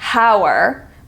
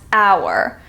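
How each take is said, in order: First: The initial H is sounded. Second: The initial H is silent. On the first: The speaker calls it wrong. "We don't pronounce it hour" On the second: The speaker calls it right. "we pronounce hour"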